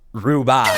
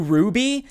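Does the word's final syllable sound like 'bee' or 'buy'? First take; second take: buy; bee. First: The final syllable sounds like 'buy'. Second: The final syllable sounds like 'bee'.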